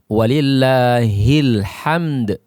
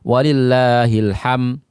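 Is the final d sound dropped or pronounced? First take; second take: pronounced; dropped. First: The final d sound is clearly released. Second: The final d sound is left out. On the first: The speaker calls it right. "Yang benar adalah walillahil hamd. Ya, dal tetap dibaca dan dia dikolkolahkan" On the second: The speaker calls it wrong. "tidak membaca dal, maka ini akan merubah makna"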